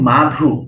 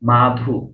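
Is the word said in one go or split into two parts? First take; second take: one go; one go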